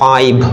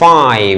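First: It ends with a Bengali aspirated bh sound. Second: It ends with an English lip-teeth v sound. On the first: The speaker calls it wrong. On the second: The speaker calls it right.

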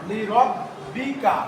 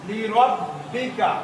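Both takes have the same delivery.

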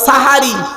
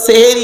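First: The first vowel is an a sound. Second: The first vowel is an e sound. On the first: The speaker calls it right. "শব্দটা সাহারি। সিনে জবর।" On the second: The speaker calls it wrong. "বলি শব্দটা সেহেরি নয়"

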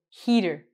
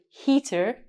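First: The T is a soft, quick D-like sound. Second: The T is a crisp, clear T sound. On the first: This is how Canadians and Americans say it. "we say heater" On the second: This is not how Canadians and Americans say it. "we don't say heater"

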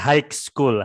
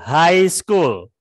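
First: The word high ends with a k-like sound. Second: The word high sounds like hai, no k. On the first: The speaker calls it wrong. "Bukan high school" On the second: The speaker calls it right. "kayak kamu ketemu teman, hai, bacanya kayak gitu"

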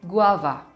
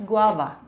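Both takes have the same delivery.

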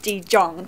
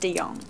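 First: The J is pronounced as a J sound. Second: The J is silent, sounding like a Y. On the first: The speaker calls it wrong. "everyone says De Jong" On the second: The speaker calls it right. "it's got a silent J"

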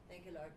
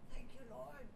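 First: It is said in a careless, offhand way. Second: It is said with heartfelt worship.

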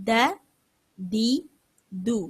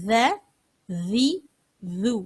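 The two takes are said the same way.

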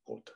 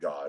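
First: The word ends almost with a T sound. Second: The word ends with a plain D sound. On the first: The speaker calls it right. "it's God. So it almost becomes a T on the end, and that changes the O" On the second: The speaker calls it wrong. "it's not God"

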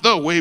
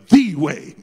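First: The word 'the' is said plainly, unstressed. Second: The word 'the' is strongly emphasized.

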